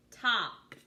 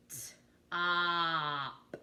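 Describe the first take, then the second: First: Said in the usual way. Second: "T-op" with a drawn-out vowel; sounded out, stretched. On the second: Shown as a demonstration. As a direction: slowly sound out "T-op", holding the vowel. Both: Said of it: "I'm gonna sound out those words".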